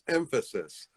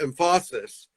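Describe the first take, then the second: First: The stress is on the first syllable. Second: The stress is on a later syllable. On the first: The speaker calls it right. "it's emphasis with the accent on the first syllable" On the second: The speaker calls it wrong. "It's not emphasis"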